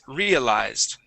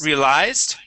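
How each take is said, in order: First: The stress is on the first syllable. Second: The stress is on the last syllable. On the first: The speaker calls it right. "Stress at the very beginning" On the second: The speaker calls it wrong. "with the stress at the end here"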